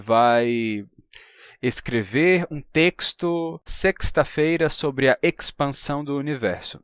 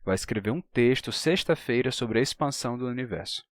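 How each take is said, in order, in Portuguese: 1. O x antes de consoante soa como ks. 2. O x antes de consoante soa como s. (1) "Então não digam que" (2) "Você vai pronunciar como se tivesse um S ali"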